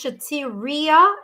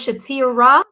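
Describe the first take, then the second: First: The name is said with four syllables. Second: The name is said with three syllables. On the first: The speaker calls it right. "it's Shatiria" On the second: The speaker calls it wrong. "instead of Shatira"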